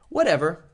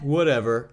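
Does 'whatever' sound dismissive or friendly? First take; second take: friendly; dismissive. First: It is said in a warm, friendly tone. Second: It is said in a dismissive, careless tone. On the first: The speaker is happy to let the other decide. The speaker calls it right. "in a nice way" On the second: The speaker is not really listening. The speaker calls it wrong. "But if you just say, eh, whatever"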